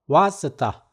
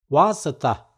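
Both takes have the same delivery.

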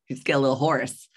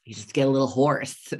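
First: Laughing. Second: Worn-out hoarse voice; real hoarseness after a day of yelling. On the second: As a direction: voice rough from yelling all day. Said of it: "I sound like I'm about to fucking die". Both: Real, not acted.

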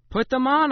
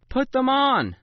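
First: Loud, high commanding mother; firm order. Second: Loud, high commanding mother, falling at the end; final word, flatly insisted; firm order. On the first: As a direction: insist sharply, rising at the end. Mother orders reluctant child. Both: A narrator's reading.

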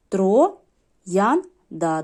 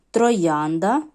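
First: «троянда» по складах, з паузами між «тро», «ян», «да». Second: Said in the usual way. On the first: Shown as a demonstration. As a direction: split «троянда» into three separate syllables. (вимовити «троянда» повільно, розділяючи три склади) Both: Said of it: "три на, три склади".

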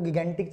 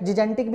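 First: गिगेंटिक with hard g sounds, "gi-gen-tik"; Indian common pronunciation. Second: जिजेंटिक with soft j sounds, "ji-jen-tik"; both g's softened to j in जिजेंटिक; soft-g pronunciation. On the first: Teacher cites the form current in India, hard-g गिगेंटिक. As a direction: keep both g's hard in गिगेंटिक. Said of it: "India में जो उसकी pronunciation चलती है". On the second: Teacher cites what some people say, soft-g जिजेंटिक. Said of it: "कुछ लोग इसे". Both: Shown as a demonstration.

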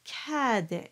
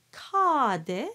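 First: Cadet with tongue forward, A as in tap; open forward A. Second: Cadet with the A pulled back and down; dark A. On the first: Teacher correcting singers, cadet with open French A. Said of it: "and the tongue moves forward". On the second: Teacher showing singers the fault, cadet with dark A. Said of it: "that pulls everything down". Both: Shown as a demonstration.

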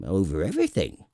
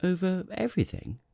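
First: Assured, falling royal statement; magnificently simple king. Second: Put-on high, wondering child-prince echo; amazed little prince. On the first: A narrator's reading. King answers what he rules, with magnificent simplicity. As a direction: declare it grandly and simply. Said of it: "with magnificent simplicity". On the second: Little prince questions the king's claim, amazed. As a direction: echo it in high-pitched disbelief.

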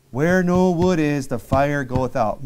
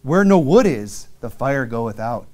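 First: "no" lifted and stretched, slow reading; slow again, hit "no" in "Where no wood is"; stress on no. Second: Slow, weighty reading of the verse; slow scripture reading. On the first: Preacher rereading the verse, slowly stressing no. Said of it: "verse repeated, stress shifted". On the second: Preacher reading the verse slowly to his congregation. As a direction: lean on "wood" and let "fire goeth out" fall. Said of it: "reading the verse aloud". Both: Shown as a demonstration.

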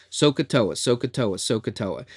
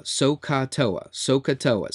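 First: Say it fast. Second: Chanted, So ka toa said slowly, syllable by syllable; chanting the mnemonic. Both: Shown as a demonstration. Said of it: "Say it fast a bunch of times".

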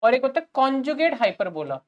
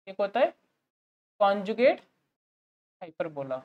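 First: Said in the usual way. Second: "एक होता है", pause, "conjugate", pause, "hyperbola" fading softer; broken into chunks. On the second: Shown as a demonstration. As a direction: repeat the term piece by piece for students to write.

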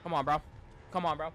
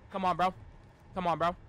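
No difference in how they are said.

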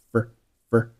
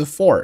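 First: "fur" as the unstressed for, schwa vowel; weak little "fur" in place of full for; weak form. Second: Said in the usual way. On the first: Shown as a demonstration. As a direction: reduce for to a short "fur". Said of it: "介词for是弱读".

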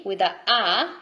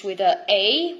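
First: "A" said as Italian "ah"; Italian letter name A. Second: "A" said as English "ay"; gliding ay sound on "A"; English letter name A. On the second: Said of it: "the words that finish with a A". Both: Shown as a demonstration.

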